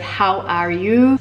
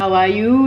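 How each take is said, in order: First: It is said with an English accent, H sounded. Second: It is said with a French accent, H dropped. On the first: "instead of how are you" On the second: "how are you instead of"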